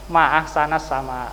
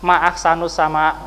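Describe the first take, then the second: First: The vowel after ahsan is a. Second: The vowel after ahsan is u. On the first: It exclaims how beautiful the sky is. The speaker calls it right. "Kalau gitu bilang saja apa?" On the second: It asks what is most beautiful in the sky. The speaker calls it wrong. "Putrinya mengatakan ma'ahsanus sama ya"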